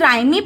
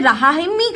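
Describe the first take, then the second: First: It ends with an added final ee vowel. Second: It has a sounded h and final ee. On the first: "क्या हम इसे राइमी पढ़ेंगे? ... No" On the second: "क्या हम इसे रहामी करेंगे? No"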